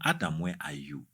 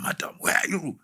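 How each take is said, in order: First: It sounds calm and gentle. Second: It sounds angry and accusing. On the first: The caller is seeking the hearer out of love. The speaker calls it right. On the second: The caller wants to punish the hearer. The speaker calls it wrong.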